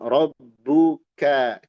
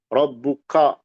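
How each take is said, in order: First: The final vowel is a light, thin a. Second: The final vowel is a heavy a toward o. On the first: The speaker calls it right. "ka ka itu tipis" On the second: The speaker calls it wrong. "ko ko nah, itu tebal"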